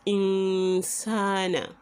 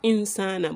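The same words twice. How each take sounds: First: The vowel is held out longer before moving on. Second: The vowel is cut short without lengthening. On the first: The speaker calls it right. "you will have to wait there a bit" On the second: The speaker calls it wrong. "Not insana"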